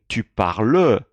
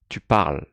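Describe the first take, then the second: First: The final E is pronounced out loud. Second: The final E is silent. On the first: The speaker calls it wrong. "I'm not saying tu parles, ... This is wrong" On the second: The speaker calls it right. "Not pronouncing the E out loud"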